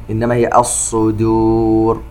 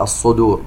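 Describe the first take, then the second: First: "الصدور" slowly, ṣād emphatic but dāl kept light and unheavied. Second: Said in the usual way. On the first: Shown as a demonstration. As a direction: say "الصدور" with the dāl thin, not like ḍād. ("الصدور" بدال مرققة لا كالضاد) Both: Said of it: "ستصبح كالضاد".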